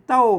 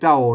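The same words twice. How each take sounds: First: The word is said with the tho tone. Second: The word is said with the ek tone. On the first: This is how Standard Thai reads it. "ภาษาไทยมันออกอันเสียงโทนะมันอ่านออกเสียงโทนะครับเต้านะ" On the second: This is how Tai Lue and Tai Yong read it. "อันไตลือก็ไตยองมันออกเสียงเอกนะครับ"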